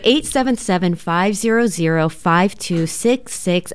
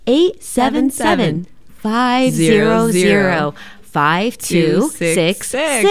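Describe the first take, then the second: First: The number is read quickly. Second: The number is read more slowly.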